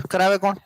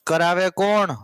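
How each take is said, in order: First: Said in the usual way. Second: "કરાવે કોણ" stretched out, lingering on કોણ; drawn-out question. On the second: Real, not acted. Teacher asking the class again, "કરાવે કોણ" drawn out. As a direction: repeat "કરાવે કોણ" slowly, holding the vowel of કોણ.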